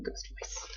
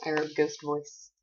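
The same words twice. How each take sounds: First: Airy spooky whisper; whispered ghost voice. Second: Said in the usual way. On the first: Pretend. Reading her note aloud, whispered ghost voice. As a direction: breathe it out like a ghost.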